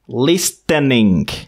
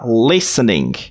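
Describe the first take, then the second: First: The T sound is pronounced in the middle. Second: The T sound is silent in the middle. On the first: The speaker calls it wrong. "ce mot ne se prononce pas listening" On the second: The speaker calls it right. "Vous ne prononcez pas le T de listen"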